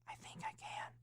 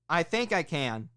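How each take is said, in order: First: It is whispered very softly. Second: It is said loudly. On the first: "the first one you're going to whisper" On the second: "the third one you're going to be loud"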